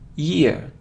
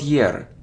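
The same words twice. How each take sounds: First: It sounds like y followed by ear. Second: It does not sound like y plus ear. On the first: The speaker calls it right. "y and ear" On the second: The speaker calls it wrong. "not year"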